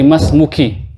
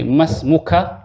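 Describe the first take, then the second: First: Masmuki, ending clearly on a short "i"; masmuki, addressing a woman. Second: Masmuka, ending clearly on a short open "a"; masmuka, addressing a man. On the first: Teacher saying the female form to the class, ending on ki. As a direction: say masmuki with the final "ki" rhyming with "key", not "ka". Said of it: "That is now for anti". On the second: Teacher saying the male form to the class, ending on ka. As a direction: say masmuka with the final "ka" as in "ka", not "ki". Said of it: "who am I speaking to?". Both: Shown as a demonstration.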